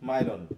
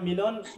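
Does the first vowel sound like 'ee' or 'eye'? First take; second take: eye; ee. First: The first vowel sounds like 'eye'. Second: The first vowel sounds like 'ee'. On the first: This is how foreigners read the spelling. "আমার বানানটা শুনে বিদেশিরা বলে মাইলন" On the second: This is how the owner says the name. "আমার নাম মিলন"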